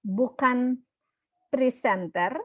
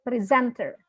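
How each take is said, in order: First: Presenter said the wrong way, as in Indonesian; wrong stress shown. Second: Presenter said the right English way; correct pronunciation. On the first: Teacher to students, showing the wrong way to say presenter. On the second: Teacher to students, modelling the right way to say presenter. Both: Shown as a demonstration. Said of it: "tetapi presenter".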